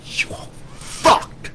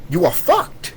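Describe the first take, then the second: First: Very slow, voiceless, strained threat; drawn-out warning. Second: Said in the usual way. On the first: Real, not acted. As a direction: stretch it out with almost no voice. Warning anyone who joins the enemy.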